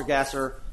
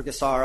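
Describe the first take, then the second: First: Gasser, ending like "-er"; alternative name pronunciation. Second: Gassar, ending in "-ar"; alternative name pronunciation. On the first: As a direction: say Gasser with a weak final syllable. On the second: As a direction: say Gassar with a full "ar" at the end. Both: Real, not acted. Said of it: "I don't know exactly how to pronounce it".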